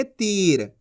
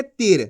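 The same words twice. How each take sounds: First: तीर with the ī held long; long drawn-out vowel. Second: तीर with a short i, like "tir"; quick "tir" for तीर, no stretch; wrongly shortened vowel. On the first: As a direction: stretch तीर into "teeer". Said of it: "खींच के पढ़ेंगे". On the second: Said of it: "ऐसे नहीं पढ़ेंगे". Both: Shown as a demonstration.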